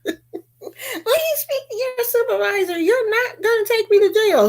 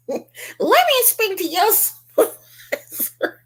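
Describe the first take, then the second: First: High entitled whine through laughter; mock Karen voice laughing. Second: Mock Karen voice. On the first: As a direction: mimic her demanding a supervisor. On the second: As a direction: play the indignant customer demanding a manager. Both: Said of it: "You know she wants".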